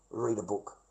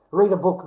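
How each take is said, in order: First: Much softer and lower; soft aside. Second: Said in the usual way. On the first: Real, not acted. Telling viewers how he falls asleep, softer and lower. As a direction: mutter the advice to yourself. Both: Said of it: "It's really good if I wanna go to sleep".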